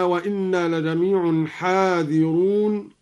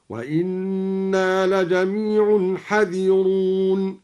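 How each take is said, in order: First: Said in the usual way. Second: Slow chant, حذرون as "hadhiroon"; dropped alif. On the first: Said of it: "قرأ الدوري بحذف الألف". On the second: Shown as a demonstration. Teacher shows al-Duri's reading, slowly chanting حذرون with short "ha". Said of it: "هكذا".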